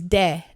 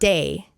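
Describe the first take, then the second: First: The word ends in a clean Spanish e vowel. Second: The word ends in an English gliding ay sound. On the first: The speaker calls it right. "it's de" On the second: The speaker calls it wrong. "not day"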